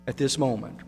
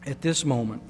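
Both takes have the same delivery.

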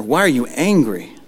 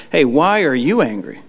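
First: "Why are you angry?" in a charged, irritated voice; a mock irritated parent's question. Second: "you" pressed hard, rest falling away; stressed demo. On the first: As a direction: snap the question out, annoyed. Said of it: "an irritated or charged up tone". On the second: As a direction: stress on "you" in "Hey, why are you angry?", pitch falling after. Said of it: "Emphasizing certain words". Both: Shown as a demonstration.

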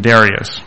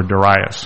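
First: Darius as DAIR-ee-us; alternative pronunciation. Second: Darius as duh-RYE-us; alternative pronunciation. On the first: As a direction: stress the first syllable of Darius. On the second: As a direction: stress the middle syllable of Darius. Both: Shown as a demonstration. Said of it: "however you pronounce it".

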